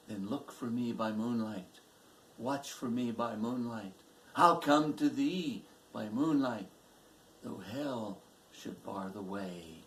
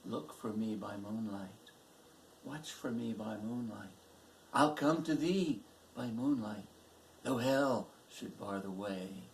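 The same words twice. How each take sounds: First: Recited vow, rising on I'll come to thee; robber's vow. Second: Dead man's echo. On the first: Robber to his sweetheart at parting, ardent vow. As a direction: promise it firmly, then ease down on the last line. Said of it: "he heard the robber say". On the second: Daughter hears the dead man say it, subdued echo. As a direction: hold it back, lifting only on I'll come to thee. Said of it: "she heard the dead man say". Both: A narrator's reading.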